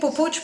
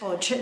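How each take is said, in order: First: The name is said with two syllables. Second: The name is said with one syllable. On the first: The speaker calls it wrong. "Havia dit Pupuig" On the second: The speaker calls it right. "però és Puig"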